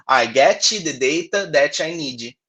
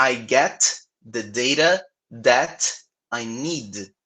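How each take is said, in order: First: An extra i after each final consonant, "get-chi", "that-chi", "need-ji"; teacher imitates the Brazilian mistake for students: an i after final consonants; with added i sounds. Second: Final t and d cut short with no vowel after them; teacher models the sentence for students, ending consonants clipped; silent final consonants. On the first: Slow, heavily Brazilian-accented English with added vowels. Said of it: "Se você colocar esse izinho". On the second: Slow, clean English, no added vowels. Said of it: "Reparem nessas últimas consoantes". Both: Shown as a demonstration.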